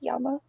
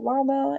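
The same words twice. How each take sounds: First: The word begins with a Y sound. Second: The word begins with an L sound. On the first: "it has double L, but it's pronounced llama" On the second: "I use the example llama in English"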